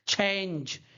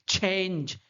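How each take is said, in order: No difference in how they are said.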